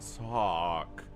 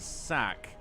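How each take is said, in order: First: The vowel sounds rounded, like British 'cot'. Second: The vowel sounds open, like in 'cat'. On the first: "like a British person" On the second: "who I've been pronouncing Sack for years now"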